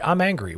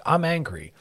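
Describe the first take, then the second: First: A quick, raised mock snap of anger; mock angry. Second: Raised, clipped mock anger; mock angry. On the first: Demonstrating the angry reaction people jump to, mock anger. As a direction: imitate someone blurting out anger. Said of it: "people go right to angry". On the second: Shown as a demonstration. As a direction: toss off the angry label. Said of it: "versus saying".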